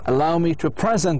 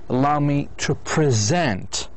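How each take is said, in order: First: The word present sounds like the noun. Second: The word present sounds like the verb. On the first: It sounds like a gift or the present time. The speaker calls it wrong. "because he said present" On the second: It means to introduce someone. The speaker calls it right. "you need to say allow me to present as a verb"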